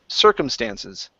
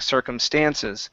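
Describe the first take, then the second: First: The stress falls on the first syllable. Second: The stress falls on the last syllable. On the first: The speaker calls it right. "The stress is at the very beginning" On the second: The speaker calls it wrong. "you're putting the stress uh, here at the end"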